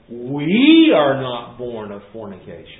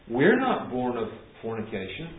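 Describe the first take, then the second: First: The word "we" carries strong stress. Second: No word stands out with special stress. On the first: They imply that the other person was born that way. The speaker calls it right. "get the intonation right" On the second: A plain denial about their own birth. The speaker calls it wrong. "they're not just saying"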